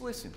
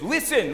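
First: It is said gently and soothingly. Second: It is said sharply and commandingly. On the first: The listener is being calmed down. "you need to be soothed" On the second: The listener is being told to pay attention. "listen up"

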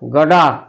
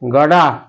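First: It is blended into one reduced word. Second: The same.

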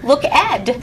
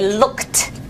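First: The ending is a separate 'ed' syllable. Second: The ending is a single 't' sound. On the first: The speaker calls it wrong. "we don't say look ed" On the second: The speaker calls it right. "We say a T"

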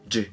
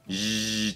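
First: The consonant starts with a short stopped burst. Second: The consonant is a continuous buzzing hiss. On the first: "チの有声バージョンがジです" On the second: "シとチの違い...それのそれぞれの有声バージョン"

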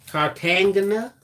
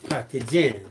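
First: The name is said in a Southern accent. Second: The name is said in a plain accent.

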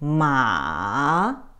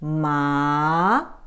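First: The pitch dips down then rises. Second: The pitch rises upward. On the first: It means horse. "If you go down and up" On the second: It means numb. "But if it goes up"

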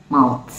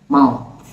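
Both takes have the same delivery.

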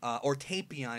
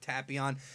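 First: The first vowel sounds like 'ay' in 'day'. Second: The first vowel sounds like 'ah' in 'father'. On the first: This is how the dub says it. "if you watch the dub" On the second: This is the original way of saying it. "that's a cool backstory with Tapion"

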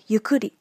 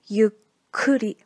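First: The middle consonant is short, not doubled. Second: The middle consonant is held long, doubled. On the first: The speaker calls it wrong. "Some students pronunciate this word like" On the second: The speaker calls it right. "The correct pronunciation will be"

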